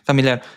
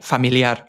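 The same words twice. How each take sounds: First: The word is pronounced with English sounds. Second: The word is pronounced with Spanish sounds. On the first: The speaker calls it wrong. "you wouldn't say it like that" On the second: The speaker calls it right. "You say familiar"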